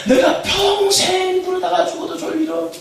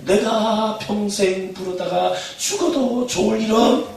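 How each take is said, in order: First: Very high, loud, slow shout stressing 평생; shouted call. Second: Call to repeat. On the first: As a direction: cry it out for the crowd to answer. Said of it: "아, 이렇게 하신다는 거니까". (평생을 힘주어 높고 크게 외치기) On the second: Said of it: "여러분 한번 따라하세요". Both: Shown as a demonstration.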